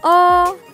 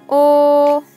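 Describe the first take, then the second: First: It is said with the rising second tone. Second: It is said with the level first tone. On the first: "Bentuk kedua" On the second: "bentuk pertama"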